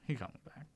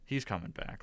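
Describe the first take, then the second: First: It is said in a tiny childlike voice. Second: It is said in his normal voice.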